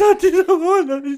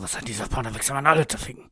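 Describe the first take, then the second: First: It is said in a whiny, weepy tone. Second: It is said in an aggressive tone.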